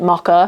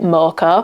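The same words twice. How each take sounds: First: It is said with a non-American pronunciation. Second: It is said with an American pronunciation. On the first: "because I say it Mocha" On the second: "I think the Americans say it Mocha"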